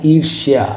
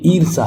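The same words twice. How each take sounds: First: ईर्ष्या ending "shyaa"; correct sh with y. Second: ईर्षा ending "saa"; wrong missing y. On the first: Teacher gives the correct ईर्ष्या, with sh and y. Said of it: "ये बिल्कुल correct है". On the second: Teacher shows faulty ईर्षा, s and no y. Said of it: "जबकि होता है". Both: Shown as a demonstration.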